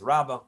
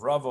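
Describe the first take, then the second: First: Rava said as Rabbah, with a b; alternative name variant. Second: Rava with a v sound; first name variant. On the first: Citing the Gemara in Shabbos, Rava pronounced Rabbah. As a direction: say Rava with a b, louder: RAB-ah. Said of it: "the Gemara in Shabbos says". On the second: Giving the teaching's attribution, Rava with a v. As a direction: say Rava with a rounded first vowel and a v. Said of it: "or as". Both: Shown as a demonstration.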